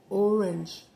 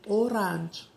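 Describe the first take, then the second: First: It is said with standard English pronunciation. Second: It is said with a Mexican Spanish accent.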